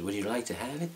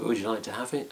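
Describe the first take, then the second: First: A loose, half-hearted try at RJ's American-style voice, a bit softer; mimicking the chap's offer in a borrowed accent. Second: Said in the usual way. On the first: Speaker imitates RJ offering the mask, in a mock accent. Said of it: "that's not really your accent". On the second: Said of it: "he basically said".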